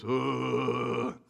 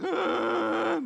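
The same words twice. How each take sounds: First: Long, droning monster groan; monster grunt. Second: High, loud, drawn-out adolescent groan; long high-pitched teenage "uuugh"; junior high boy groan. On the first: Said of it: "he talks like junior high boys". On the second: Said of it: "junior high boys would be more like". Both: Retold or imitated.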